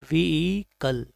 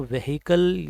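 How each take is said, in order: First: व्हीकल slowly as "vee-kal", silent h; correct pronunciation. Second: व्हीकल wrongly said with a sounded h, "ve-hi-kal"; mispronunciation demo. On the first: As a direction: stretch the long "vee" in व्हीकल, then "kal". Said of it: "right pronunciation is". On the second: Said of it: "इसको नहीं पढ़ेंगे". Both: Shown as a demonstration.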